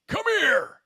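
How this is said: It is said in a Scorpion impression voice.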